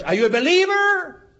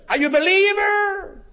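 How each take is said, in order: First: 목소리를 확 높여 다그치듯; pressing question, much higher. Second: 더 높이 끌어올려 몰아붙이는 질문; climbing higher, demanding an answer; insistent question, even higher. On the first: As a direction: pushes the question up high and hard. Pastor presses question again. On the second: Pastor presses third time. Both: Retold or imitated.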